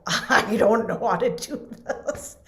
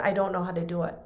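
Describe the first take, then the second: First: Put-on slow, higher, laughing helpless kid. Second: Said in the usual way. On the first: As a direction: giggle out the admission. Frightened child at the chalkboard.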